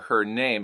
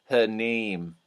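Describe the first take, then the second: First: The A vowel in name sounds plain and short. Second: The A vowel is stretched, sounding close to E.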